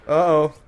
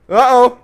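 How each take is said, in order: First: Said in the usual way. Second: Higher, louder alarmed uh-oh. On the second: Real, not acted. Gamer alarmed by an enemy, louder uh-oh. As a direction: sound the alarm with the uh-oh. Gamer sensing danger in game.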